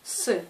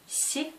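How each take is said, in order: First: The consonant is hard, tongue not raised. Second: The consonant is soft, tongue raised to palate. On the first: "c'est un son dur" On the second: "c'est un son mou"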